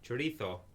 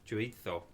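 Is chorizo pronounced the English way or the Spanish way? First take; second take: Spanish; Spanish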